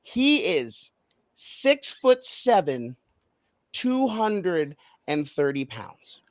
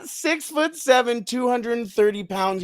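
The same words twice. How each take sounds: First: Slow reveal, pausing before SIX-FOOT-SEVEN and POUNDS drawn out; dramatic pauses. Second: SIX-FOOT-SEVEN, TWO HUNDRED AND THIRTY POUNDS run together, higher; high, unbroken repeat of the stats; brought back together. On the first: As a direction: pause for effect between each figure. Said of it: "pause for dramatic effect". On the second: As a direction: join the stats in one excited run. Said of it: "then bring it back together". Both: Shown as a demonstration.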